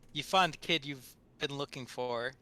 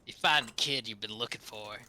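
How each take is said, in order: First: It is read in a plain narrating voice. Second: It is read in a put-on gangster voice.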